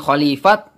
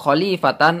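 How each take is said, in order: First: The word ends with a t sound. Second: The word ends with a tan sound. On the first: "Bukan khalifat" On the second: "bukan khalifatan"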